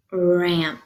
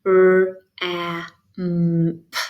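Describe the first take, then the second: First: Said in the usual way. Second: R, a, m, p as four isolated sounds; separated phonemes. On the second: Shown as a demonstration. Teacher giving phonemes to blend, separated phonemes. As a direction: sound out R, a, m, p with gaps between. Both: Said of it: "See if you can blend this word".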